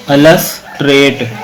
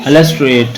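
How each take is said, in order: First: अलस trade split slowly, pause after अलस; two separate chunks. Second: Said in the usual way. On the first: Shown as a demonstration. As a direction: break अलस trade into "alas" and "trate". (अलस trade को दो टुकड़ों में बोलें) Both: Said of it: "दो syllable हैं".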